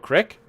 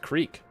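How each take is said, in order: First: The word has a short 'ih' vowel. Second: The word has a long 'ee' vowel. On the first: "no one says crick" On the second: "how do you mispronounce creek?"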